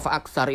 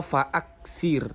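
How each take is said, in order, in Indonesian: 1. Vokal terakhir kata itu adalah 'a'. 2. Vokal terakhir kata itu adalah 'i'. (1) "kalau fa'aksar itu nanti khawatir e, ketuker" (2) "semestinya dibaca fa'aksir"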